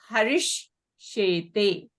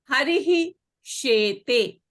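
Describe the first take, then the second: First: The first word ends in an sh sound. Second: The first word ends in an h sound. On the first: "this visarga will become a sh" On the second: "it will remain as it is"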